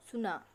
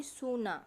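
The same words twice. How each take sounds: First: सुना with a short quick u; short u shown. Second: सूना with a long ऊ sound; long u shown. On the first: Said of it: "छोटे ऊ की मात्रा ... सुना". (सुना में छोटा ऊ) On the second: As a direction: draw out the ऊ in सूना. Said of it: "जब बड़े ऊ की मात्रा लगी". (सूना में लंबा ऊ) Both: Shown as a demonstration.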